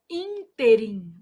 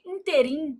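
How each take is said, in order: First: "ínterim" as ÍN-te-rim; stress on first syllable. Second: "Interim" stressed on the last syllable; popular mispronunciation. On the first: Shown as a demonstration. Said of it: "quando pronunciada como oxítona". ("ínterim" com força no ÍN) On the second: Retold or imitated. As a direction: say "Interim" as in-te-RIM. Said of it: "O povo vai lá e fala assim". ("Interim" errado, com a tônica no RIM)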